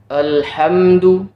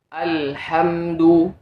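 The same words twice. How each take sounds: First: The first vowel is not fully opened. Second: The first vowel is a fully open a. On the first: The speaker calls it wrong. "itu contoh penyebutan harokat yang masih kurang sempurna" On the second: The speaker calls it right. "Contoh yang benar"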